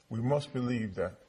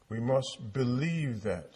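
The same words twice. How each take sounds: First: "must" hit firmly, the rest falling away; stress on must. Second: "believe" drawn out and leaned on, slow; stress on believe. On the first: Preacher to congregation, insisting on "must". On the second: Preacher to congregation, pressing the word "believe". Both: Shown as a demonstration.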